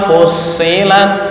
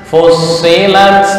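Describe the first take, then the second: The two takes are said the same way.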